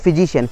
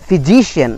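First: The stress falls on a different syllable. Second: The stress falls on the syllable before -cian. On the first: The speaker calls it wrong. "not physician" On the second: The speaker calls it right. "So for physician"

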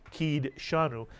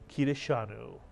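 First: The vowel after the d is dropped. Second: A short vowel is heard after the d. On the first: The speaker calls it wrong. "We wouldn't say kid shanu" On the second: The speaker calls it right. "the actual pronunciation of this word is kidashanu"

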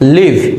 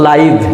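First: The vowel is a short 'ih' sound. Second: The vowel is a long 'eye' sound. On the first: To dwell somewhere. "লিভ অর্থ আমরা জানি বাস করা" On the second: Happening in real time. "এটা হচ্ছে লাইভ। এই লাইভ শব্দের অর্থ হচ্ছে সরাসরি।"

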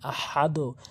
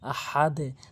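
First: The final d echoes with a rounded 'o' sound. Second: The final d echoes with a low 'e' sound. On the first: The speaker calls it wrong. "অনেকেই যে ভুলটি করে ... আহাদো বলে" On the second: The speaker calls it right. "আহাদো না হয়ে আহাদে"

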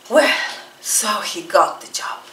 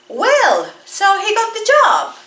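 First: It is said with a relieved tone. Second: It is said with a surprised tone. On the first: The speaker is glad a worry is over. "Y si es alivio" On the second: The speaker did not expect him to get the job. "Ajá, sorpresa"

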